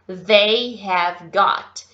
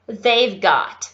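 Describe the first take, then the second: First: The words they have are said in full. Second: The words they have are contracted to they've.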